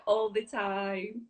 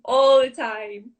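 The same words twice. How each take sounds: First: Said in the usual way. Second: "all the time" louder and slower, every word leaned on; emphatic repeat. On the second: Real, not acted. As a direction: stress "all the time", drawn out and loud.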